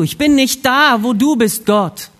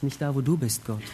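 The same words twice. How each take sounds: First: High, loud, emphatic cry to God; loud confession. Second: Soft, low, sober realisation; quiet inner thought. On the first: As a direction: call it out slowly to God. Adams Erkenntnis, Gott zugerufen. (laut und eindringlich bekennend) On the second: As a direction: think it aloud, hushed and low. Adams stiller Gedanke im Kopf. (leise und tief, nachdenklich) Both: Acted.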